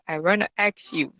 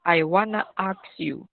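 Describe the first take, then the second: First: It is said in an American accent. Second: It is said in a British accent. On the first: "Di American" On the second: "kalau di British itu dibaca"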